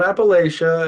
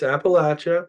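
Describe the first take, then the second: First: The middle has a long 'lay' sound. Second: The middle sounds like 'apple' with a short a. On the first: The speaker calls it wrong. "It's not Appalachia" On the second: The speaker calls it right. "I'm going to throw an Appalachia"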